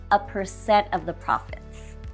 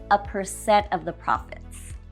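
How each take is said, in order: Both takes have the same delivery.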